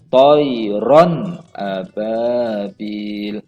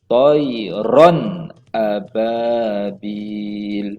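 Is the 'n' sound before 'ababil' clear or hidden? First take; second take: clear; clear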